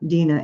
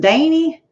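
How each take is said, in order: First: The name is said in a Northern American accent. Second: The name is said in a Southern American accent. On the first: "my name was not Dina" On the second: "it was Danny. You know, they never lost their accent"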